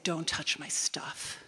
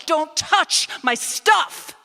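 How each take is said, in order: First: Slow, tense whisper; whispered warning. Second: Slow, much higher, much louder shout; furious shout. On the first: Quiet warning to hostile housemate. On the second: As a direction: shout it out in full fury. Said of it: "in my fury". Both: Retold or imitated.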